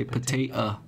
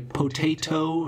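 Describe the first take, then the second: First: "potato" with the last T a glottal stop; "potato" ending in a glottal catch before the o. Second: Said in the usual way. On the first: Shown as a demonstration. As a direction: cut the final T of "potato" to a catch in the throat. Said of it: "glottal T, you know, do you say".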